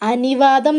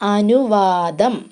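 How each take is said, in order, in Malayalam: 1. രണ്ടാമത്തെ അക്ഷരത്തിൽ 'i' സ്വരമാണ്. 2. രണ്ടാമത്തെ അക്ഷരത്തിൽ 'u' സ്വരമാണ്.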